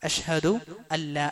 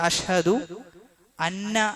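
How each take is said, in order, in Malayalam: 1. n ശബ്ദം ഇരട്ട l-ലേക്ക് ലയിക്കുന്നു. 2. n ശബ്ദം വ്യക്തമായി ഉച്ചരിക്കുന്നുണ്ട്. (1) "അവിടെ നൂന് എഴുതുമെങ്കിലും ഉച്ചാരണത്തിൽ അത് വരികയില്ല" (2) "അത് ശരിയല്ല"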